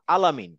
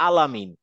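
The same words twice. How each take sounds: First: "আলামিন" with a light, open লা before মিন; light lam, alamin. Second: "আলামিন" said with a light, open লা; light lam, alamin. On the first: Teacher showing a student the light lam in "আলামিন". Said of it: "আমি কিন্তু বলছি না আলমিন". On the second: Teacher repeating the right form of the word for the student. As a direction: draw out "আলা" clearly in "আলামিন". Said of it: "আমি বলছি আলামিন". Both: Shown as a demonstration.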